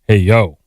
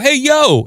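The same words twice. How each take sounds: First: It is said in an upset, dismayed way. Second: It is said in a happy, upbeat way. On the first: Something bad has happened. "If something bad happens, I go" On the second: Something good has happened. "if something good happens, I can go"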